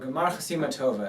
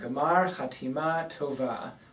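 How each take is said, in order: First: It is said quickly in an Ashkenazi accent. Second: It is said in a standard Hebrew accent.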